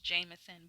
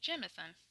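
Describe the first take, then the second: First: The first syllable rhymes with 'name'. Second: The first syllable has a short 'jem' vowel. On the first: This is the common reading from the spelling. The speaker calls it wrong. "In my mind, that's Jameson" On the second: This is the name's proper pronunciation. The speaker calls it right. "apparently the correct way is Jame is J I M, the E is a, uh, and the sun is sun"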